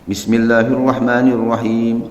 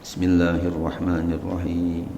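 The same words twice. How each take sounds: First: It is said aloud, clearly audible. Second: It is said quietly, almost silently.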